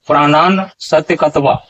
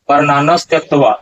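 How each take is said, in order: First: The s sound splits off into a separate syllable. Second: An s sound is joined before tyaktva. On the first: "दूसरे ढंग का उच्चारण" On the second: "ये दोनों उच्चारण बिल्कुल सही नहीं है"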